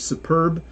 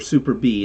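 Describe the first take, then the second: First: It is said as one word ending 'perb'. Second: It ends with a separate stressed letter B. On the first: "just say superb" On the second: "emphasize the word B and call it super B"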